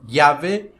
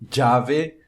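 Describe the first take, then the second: First: The ll sounds like Portuguese lh. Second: The ll sounds like a dj sound. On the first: "como se fosse um L H" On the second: "como se fosse um D J"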